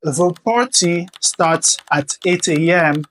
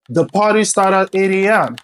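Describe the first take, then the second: First: The T sounds are crisp, clear T sounds. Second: The T sounds are soft, D-like flaps. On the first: The speaker calls it wrong. "Au lieu de dire" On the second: The speaker calls it right. "vous allez plutôt dire"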